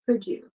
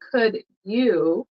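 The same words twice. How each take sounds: First: The d and y merge into a j sound. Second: The d and y stay separate sounds. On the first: "very often you'll hear English speakers say could you" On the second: "Instead of saying could you"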